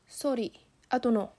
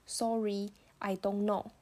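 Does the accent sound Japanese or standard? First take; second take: Japanese; standard. First: It is said with a Japanese accent. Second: It is said with a plain standard accent. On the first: "甚至我们日本的话，我就会说" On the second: "那如果是我们台湾的话，我们就念得很标准"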